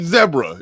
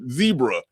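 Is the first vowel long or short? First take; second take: short; long. First: The first vowel is a short e. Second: The first vowel is a long e. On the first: This is how it is said outside America. The speaker calls it right. "it's clearly zebra. It's, it's that's a short e" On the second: This is how Americans say it. The speaker calls it wrong. "We sitting there calling it zebra"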